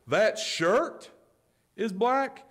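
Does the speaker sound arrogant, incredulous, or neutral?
arrogant. It is said in a superior, arrogant tone. The speaker implies the listener should already know. "That can be arrogance"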